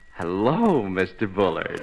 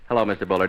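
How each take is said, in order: First: The greeting sounds warm and charming. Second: The greeting sounds flat and cold. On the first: The speaker is interested in the man. The speaker calls it right. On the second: The speaker is indifferent to the man. The speaker calls it wrong.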